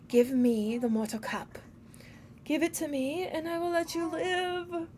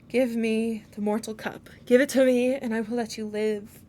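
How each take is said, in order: First: It is said in a Smeagol voice. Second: It is said in a plain voice.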